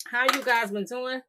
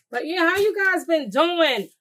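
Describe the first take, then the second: First: Said in the usual way. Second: High, loud, drawn-out hello to viewers; excited greeting. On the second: Real, not acted. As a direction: sing it out slow and bright to the audience. Greeting the viewers mid-cooking.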